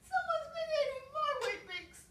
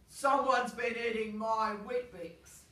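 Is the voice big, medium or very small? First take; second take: very small; big. First: It is said in a very small voice. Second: It is said in a big, deep voice.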